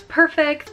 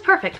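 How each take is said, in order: First: Said in the usual way. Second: "perfect." leapt up high, drawn out; emphatic repeat. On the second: Shown as a demonstration. Mother repeating to listeners that labor went perfectly, high emphatic "perfect.". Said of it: "Again, it was perfect".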